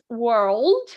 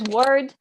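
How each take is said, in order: First: The L is clearly pronounced before the D. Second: The L is dropped, sounding like word. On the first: The speaker calls it right. "One is world, um, which would be the American" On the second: The speaker calls it wrong. "there is a common mistake, which is uh, that people pronounce it word the same as word"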